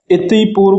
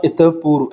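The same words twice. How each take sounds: First: "इति पूर्व" with an i ending on the first word; wrong form demonstrated. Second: "इतः पूर्व" with an open vowel ending the first word; correct form demonstrated. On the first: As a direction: say "इति पूर्व" as iti poorv. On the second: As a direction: say "इतः पूर्व" as itah poorv. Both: Shown as a demonstration. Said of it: "इति पूर्व का होता है इतः पूर्व".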